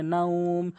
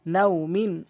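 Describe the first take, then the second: First: Slow, level "নাউম", held as at a stop; drawn-out pausal ending. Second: Said in the usual way. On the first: Shown as a demonstration. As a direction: stretch the "উ" in "নাউম" before the final m. ("নাউম"-এ উ টেনে থামা) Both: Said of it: "ওয়াকফ করলে".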